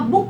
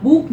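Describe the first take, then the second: First: बुक with a short, quick "u"; short U vowel. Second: बुक stretched into "booook"; long OO vowel. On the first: Teacher showing students the usual word, short U. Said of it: "आप बुक बोलते हैं". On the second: Teacher showing what one doesn't say, long OO. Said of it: "आप बुक नहीं बोलते हैं". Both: Shown as a demonstration.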